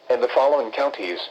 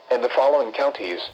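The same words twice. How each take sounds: The two takes are said the same way.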